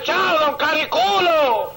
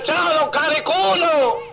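First: Slow, drawn-out mocking hello; teasing greeting. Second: Slow, drawn-out mocking hello with a laugh; teasing greeting. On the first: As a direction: stretch "Cariculo" out to needle him. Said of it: "Pasaba el vecino y le decía". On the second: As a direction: savor "Cariculo" as a taunt. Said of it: "pasaba el vecino y decía".

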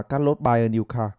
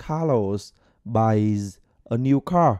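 First: "buy" with no final s, clipped and careless; dropped final s. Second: "buys" ends in a clear z sound, said slowly; clear final s. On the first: Teacher imitating students who drop the s. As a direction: say "buy" bare, swallow the s. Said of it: "phải đến chín bạn vào sẽ phát âm là". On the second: Teacher modelling the correct ending slowly. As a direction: stretch out "buys" with a crisp final z. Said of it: "nó phát âm chuẩn sẽ là". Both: Shown as a demonstration.

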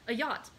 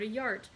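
First: Said in the usual way. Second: Yacht said with a stray r, like "yart"; mispronounced yacht. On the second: Real, not acted. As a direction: slip an r into yacht. Misreads word, then corrects it.

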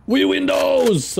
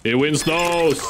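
First: Slow, high excited exclamation; excited correction. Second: Said in the usual way. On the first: Shown as a demonstration. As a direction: correct it with glee, slowly.

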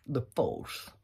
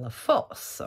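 First: "The force" said softly with a bad English accent; quick mock English accent on "The force"; lazy English accent, "The force" read the English way. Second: Said in the usual way. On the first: Shown as a demonstration. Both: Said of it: "j'ai dit le mot français avec l'accent anglais".

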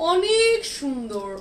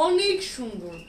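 First: Slow, stretched and higher, savouring each word; drawn-out admiring. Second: Said in the usual way. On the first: Real, not acted. Seller gushing over a dress to live viewers, slow and drawn out. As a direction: linger on it like you can't get over it.

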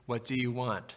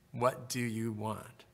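First: Said in the usual way. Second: Softer and slow, drawing the question out gently; soft slow repeat. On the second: Acted. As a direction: let the repeat sink in quietly and slowly. Repeated prayer invitation, softened take.

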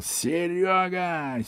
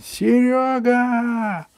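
First: Drawn-out high call to a neighbour downstairs; slow high call. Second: Even higher, louder, slow drawn-out yell; slow shouted call, much higher. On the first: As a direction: stretch the name out high and slow, calling down. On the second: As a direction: bellow the name down from the window. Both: Acted. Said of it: "Джонни завопил".

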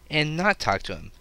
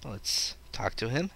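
First: "not" hit louder and higher; correcting himself by punching "not"; stress on not. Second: Said in the usual way. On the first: Shown as a demonstration. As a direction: lean hard on "not".

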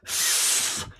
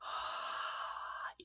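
First: Quick, forceful burst of air blown out; fast breath. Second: Long, soft, lazy exhale; slow breath. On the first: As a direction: blow out a short, fast stream of air. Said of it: "this is what fast air sounds like". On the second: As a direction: let the air drift out slowly and gently. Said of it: "This is what slow air sounds like". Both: Shown as a demonstration.

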